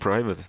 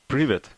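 First: It is said like the English word 'private'. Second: It is said as Russian 'privet'. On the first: "you can say private, which is... Easier" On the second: "How do you say it?"

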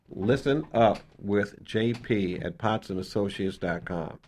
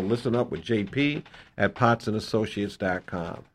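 First: It is said slowly. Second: It is said fast.

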